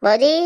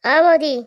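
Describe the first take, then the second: First: Said in the usual way. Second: A louder, higher call of Boudi. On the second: Acted. Calling his sister-in-law from another room, a louder, higher call. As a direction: call Boudi across the house, raised and lifted.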